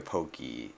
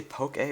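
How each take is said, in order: First: Pokey ending in "ee"; Pokey with an "ee" sound at the end; contrasted pronunciation. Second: Poké ending in "ay"; Poké with an "ay" sound at the end; contrasted pronunciation. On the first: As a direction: say Pokey as "POH-kee". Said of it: "I usually say Pokey". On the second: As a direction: say Poké as "POH-kay". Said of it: "Did you say Poké or Pokey". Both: Shown as a demonstration.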